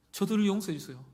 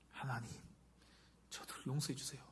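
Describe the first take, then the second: First: Loud, raised plea for forgiveness; fervent prayer. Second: Soft, hushed plea to God; gentle prayer. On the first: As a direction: cry out the prayer, high and strong. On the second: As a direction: pray quietly for their forgiveness, with pauses. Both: Acted. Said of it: "어떻게 기도하나요".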